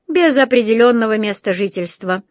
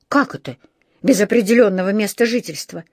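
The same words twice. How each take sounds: First: Weighty official pronouncement; imposing. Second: Understated indignant echo, as a question; challenging retort. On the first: Policeman takes down notes on the bear, imposing. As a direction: state it impressively, as a verdict. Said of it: "произнёс он внушительно". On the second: Housekeeper stands up for the bear to police, challenging. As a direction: query the phrase back in protest. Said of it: "вступилась миссис Бёрд". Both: A narrator's reading.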